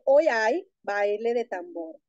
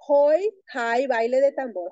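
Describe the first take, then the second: First: Both h sounds are silent. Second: Both h sounds are breathy and quick. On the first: "Para decir" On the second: "esas dos H se utilizan aspiradas y muy rápidas juntas"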